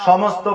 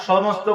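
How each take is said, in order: No difference in how they are said.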